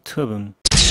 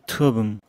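First: The phrase is said in three clear syllables. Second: The phrase is squeezed into fewer than three syllables. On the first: "세 글자 버전" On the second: "더 줄여가지고"

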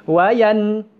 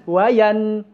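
The two takes are said the same way.

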